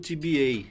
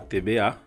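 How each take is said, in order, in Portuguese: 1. As letras usam nomes de letras ingleses. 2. As letras usam nomes de letras portugueses. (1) "muita gente traduz para o T B A" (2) "como se fala no Brasil"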